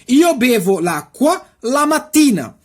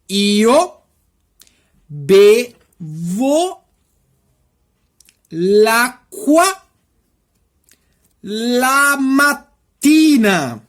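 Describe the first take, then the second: First: The sentence is spoken quickly. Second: The sentence is spoken slowly. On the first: "Eu vou falar rapidão o exemplo da frase" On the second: "depois eu vou falar devagarzinho o exemplo de frase"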